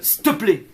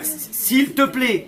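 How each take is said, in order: First: The phrase is shortened, with sounds run together. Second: The phrase is said in full, every syllable clear. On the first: "on contracte" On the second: "C'est pas"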